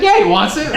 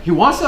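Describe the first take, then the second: First: High, loud, comic retold insistence; eager insistence. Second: High, loud question rising on "it". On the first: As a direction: blurt it out eagerly for your buddy, playing for laughs. Acts his own eager insistent answer. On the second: Retold or imitated. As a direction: retell it as a checking question, "it" lifted at the end. Acts medic's surprised question about Brock.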